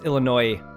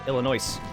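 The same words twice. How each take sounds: First: The word ends with no s sound. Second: The word ends with an audible s sound. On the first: The speaker calls it right. "it's not pronounced with an S" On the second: The speaker calls it wrong. "pronounce it with an S"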